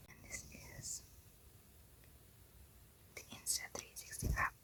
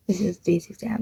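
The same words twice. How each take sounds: First: Barely audible whisper. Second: Said in the usual way. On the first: Real, not acted. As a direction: whisper it as if keeping it secret. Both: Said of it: "Why am I whispering?".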